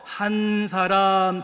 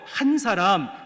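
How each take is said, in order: First: The first syllable is drawn out long. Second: The first syllable is said short. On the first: It means many people. "한자를 조금 길게 발음을 해서" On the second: It means one single person. "말 그대로 한 사람"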